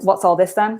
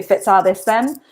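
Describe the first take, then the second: First: Said in the usual way. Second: "Fit's all this then?" with a Doric F for the WH; Doric phrase. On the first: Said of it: "As in, like". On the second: Shown as a demonstration. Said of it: "so you say".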